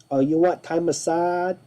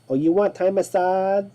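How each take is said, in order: The two takes are said the same way.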